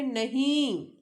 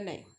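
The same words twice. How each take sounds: First: It is said angrily on a high pitch. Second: It is said calmly at a normal pitch.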